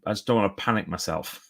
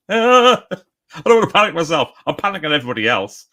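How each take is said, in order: First: Said in the usual way. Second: High, loud squeal tumbling into hammed-up panic; mock panic. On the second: Writer behind schedule joking about panicking everybody, mock panic. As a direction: play at panicking, shrill start, easing off.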